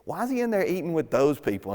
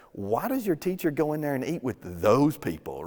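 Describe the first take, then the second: First: "he" lifted higher in an affronted, gossipy ask; mock-outraged critic asking why; indignant question. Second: A mildly disdainful religious critic asking why; mock-indignant Pharisee, understated; snooty question. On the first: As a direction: sound scandalized about who he eats with. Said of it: "Anytime those quotes show up, it's scary". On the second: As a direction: sniff at the sinners, lightly. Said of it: "They start asking Jesus' disciples pretty much this".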